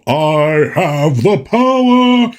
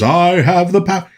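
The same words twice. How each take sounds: First: Slow, drawn-out heroic declaration with echo; cartoon He-Man cry. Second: Lightly voiced He-Man line, not very heroic; a limp, unimpressive power cry; unimpressive movie He-Man. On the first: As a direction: stretch it out like an echoing cartoon hero. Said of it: "they deepened his voice a little bit". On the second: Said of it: "His voice, when he says".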